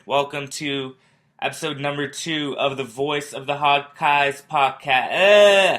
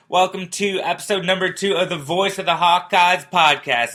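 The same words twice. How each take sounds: First: Mock announcer read. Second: Higher, louder announcer read of the show name; announcer retake. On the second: Host retaking his intro with a higher, louder announcer read. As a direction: sell the show title like a radio host. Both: Shown as a demonstration. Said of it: "let me try that again".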